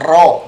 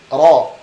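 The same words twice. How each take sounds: First: The r is rolled with many strong vibrations. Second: The r is made with only light vibration. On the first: The speaker calls it wrong. "tidak ro" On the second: The speaker calls it right. "tidak sebanyak getaran di huruf R"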